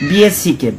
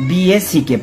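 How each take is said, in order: Both takes have the same delivery.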